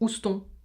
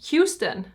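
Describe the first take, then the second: First: Houston is said with a strong French accent. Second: Houston is said with an American accent. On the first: The speaker calls it wrong. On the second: The speaker calls it right.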